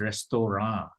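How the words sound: It is pronounced with French sounds. "in French language, the pronunciation is restaurant"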